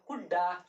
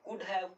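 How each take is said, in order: First: The words blend into one reduced word. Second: Both words are said fully and separately.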